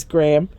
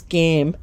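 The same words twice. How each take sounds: First: Said in the usual way. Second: Put-on "Gam" said without the r, baby-talk style; lightly imitated toddler "Gam"; toddler mispronunciation. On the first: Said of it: "That's how he says". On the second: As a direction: say "Gam" like a toddler trying "Gram". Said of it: "That's how he says "Gram".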